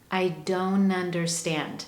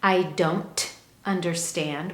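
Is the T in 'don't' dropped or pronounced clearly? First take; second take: dropped; pronounced. First: The T sound in don't is dropped. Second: The T sound in don't is clearly pronounced. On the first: "that T is deleted" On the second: "we have that clear T"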